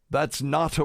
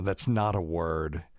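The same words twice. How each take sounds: First: Put-on higher-pitched, failed British accent; mock British boss, pitched up; attempted British accent. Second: Said in the usual way. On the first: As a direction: have a poor go at a British accent. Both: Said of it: "I can't do a British accent".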